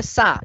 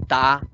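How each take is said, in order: First: "sa" con S fricativa clara; da "sa" como sílaba modelo para repetir. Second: "ta" con T en lugar de la S de "sa"; error de oclusivización. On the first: Shown as a demonstration. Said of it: "dime sa". ("sa" aislada, con la S bien marcada) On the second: Retold or imitated. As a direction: imita el error infantil: "ta" por "sa". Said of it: "el niño te dice ta". ("ta" aislada, fricativa cambiada por oclusiva)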